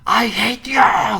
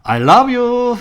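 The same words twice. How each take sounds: First: Put-on very high, loud scream of a furious kid; child screaming at mom. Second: Very high, loud, laughing call of love; mother's cheerful reply. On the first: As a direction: yell it back at your mother across the schoolyard. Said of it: "고함을 쳐지르면서". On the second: Retold or imitated. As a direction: answer the tantrum with a beaming, laughing call. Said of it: "엄마가 대답이 뭔지 알아요".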